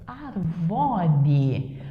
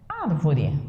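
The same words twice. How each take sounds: First: Arvore said with stress on the VOR, not the AR; "arvore" as a verb, stress on the second syllable; arvore without accent. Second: "árvore" slow, stress on the first syllable ÁR; "árvore" said slowly, first syllable stressed; árvore with accent. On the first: Teacher to class, shows "arvore" stressed on the second syllable, as a verb. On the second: Teacher to class, slowly shows "árvore" stressed on the first syllable. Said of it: "vai ficar árvore". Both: Shown as a demonstration.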